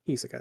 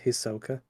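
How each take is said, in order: First: The stress is on the first syllable. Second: The stress is on the last syllable. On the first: This is the Japanese way of saying it. "Japanese they emphasize the first one" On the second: This is the Western way of saying it. "In the West, we pronounce the last thing"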